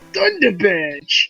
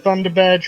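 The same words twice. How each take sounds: First: It is said in a put-on character voice. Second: It is said in an ordinary, plain voice. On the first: The speaker calls it right. "you gotta say it like Surge" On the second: The speaker calls it wrong. "Sorry, I said that wrong"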